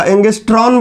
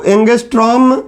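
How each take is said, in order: First: एंगस्ट्रॉन ending in n; एंगस्ट्रॉन with a final n sound; common mispronunciation. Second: एंगस्ट्रॉम ending in m; एंगस्ट्रॉम with a final m sound; correct pronunciation. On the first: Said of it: "या एंगस्ट्रॉन बोलते हैं लोग". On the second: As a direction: say एंगस्ट्रॉम, lips closed on the final m. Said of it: "म आएगा". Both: Shown as a demonstration.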